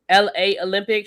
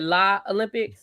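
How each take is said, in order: First: LA is said as two separate letters. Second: LA is said as one syllable, la. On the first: The speaker calls it right. "instead of saying L A Olympics" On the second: The speaker calls it wrong. "she said La Olympics"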